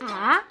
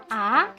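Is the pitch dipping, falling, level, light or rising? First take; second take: rising; rising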